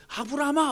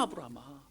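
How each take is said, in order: First: Loud high call across a distance. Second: Soft rising repeat like a fading echo. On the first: God calls out to Abraham to stop, loud high call. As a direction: cry the name out urgently. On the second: God's call to Abraham echoing softly away. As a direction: let the name fall away as an echo. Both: Acted.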